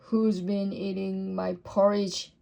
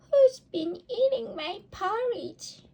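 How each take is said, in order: First: It is said in a deep, gruff voice. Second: It is said in a tiny, squeaky voice. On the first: A big father bear is speaking. "in his great gruff voice" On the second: A little baby bear is speaking. "squeaked the baby bear in his tiny voice"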